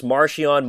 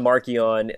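First: "Marchion" said as MAR-shee-on; soft SH sound. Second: "Marchion" said as MAR-kee-on; hard K sound. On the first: Host showing accepted variants, "Marchion" as MAR-shee-on. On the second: Host showing accepted variants, "Marchion" as MAR-kee-on. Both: Shown as a demonstration. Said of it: "you can pronounce".

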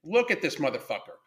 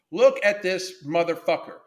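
First: Said in the usual way. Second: Slow, every word leaned on; slower, weighted repeat. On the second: Real, not acted. Showing viewers the photo, slow and emphatic. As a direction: drag it out and hammer each word.

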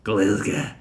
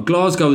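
First: "Glasgow" broad Glaswegian, GLIZ-geh with a quick ending; "Glasgow" said like a true local, tight short vowel. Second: "Glasgow" said the English way, flat GLAZ-go; English pronunciation of "Glasgow", long a and clear -go ending; "Glasgow" as a southerner says it; anglicised Glasgow. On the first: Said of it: "dyed in the wool ... Glaswegian". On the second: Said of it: "as I'm saying it ... is the worst way of saying it". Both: Shown as a demonstration.

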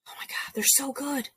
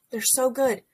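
First: Whispered, breathless oh my God, they're so good; gushing whisper. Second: Said in the usual way. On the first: Real, not acted. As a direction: whisper it like a secret rave. Gushing over radio hosts.

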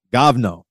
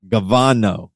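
First: Govno said in two syllables, gov-no; corrected Russian word. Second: Gavano said in three syllables, ga-va-no; mispronounced Russian word. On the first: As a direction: Govno with no vowel between g and v. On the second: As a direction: Gavano with an extra vowel between g and v. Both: Shown as a demonstration. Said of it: "It might be gov-, govno".

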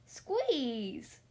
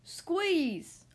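First: Order. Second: Sharp order. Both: A narrator's reading. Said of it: "ordered Tibbs".

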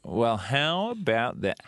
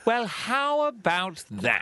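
First: Southern drawl. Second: Much higher, slow "Well, how about that?" in a posh English lilt; old English accent. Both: Shown as a demonstration. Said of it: "The difference between this and this".

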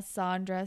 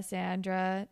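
First: Sandra with an "ah" first vowel; broad-A pronunciation. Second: Sandra with the vowel of "sand"; short-A pronunciation. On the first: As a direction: say Sandra as "SAHN-druh". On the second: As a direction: say Sandra as "SAN-druh". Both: Shown as a demonstration. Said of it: "I don't know".

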